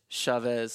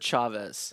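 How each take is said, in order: First: The name is said with a slight French flavor. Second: The name is said plainly, without French flavor. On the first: It sounds fancier. "like a little French" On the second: This is how the family says it. "My parents pronounce it Chavez"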